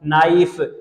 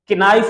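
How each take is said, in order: First: The word starts directly with the n sound. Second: A k sound is heard before the n. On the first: The speaker calls it right. "के कैसे silent होती है" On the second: The speaker calls it wrong. "किनाइफ नहीं होता, अक्सर लोग इसको किनाइफ बोलते हैं"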